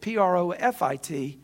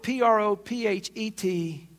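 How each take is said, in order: First: P R O F I T spelled letter by letter. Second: P R O P H E T spelled letter by letter, slowly. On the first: Preacher spells P R O F I T to contrast it with prophet. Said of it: "prophet Balaam was a for-profit". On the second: Preacher spells P R O P H E T letter by letter for listeners. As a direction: spell out P R O P H E T to a congregation. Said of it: "Well, prophet". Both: Shown as a demonstration.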